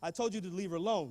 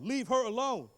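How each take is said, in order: First: Said in the usual way. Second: "her" punched higher in "Leave her alone"; stress on "her". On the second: Retold or imitated. Teacher repeating the order, firm stress on "her". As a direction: lean firmly on "her", raising the pitch.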